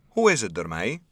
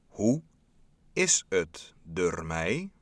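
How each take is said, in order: First: The question is spoken at a normal pace. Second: The question is spoken very slowly.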